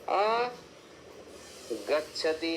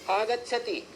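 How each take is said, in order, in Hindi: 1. पहले भाग के बाद शब्द में विराम होता है। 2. शब्द बिना किसी विराम के जुड़ा हुआ बोला जाता है। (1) "आप ऐसे नहीं बोल सकते, विराम नहीं कर सकते" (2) "नित्य संगीता आपको ऐसे बोलना पड़ेगा"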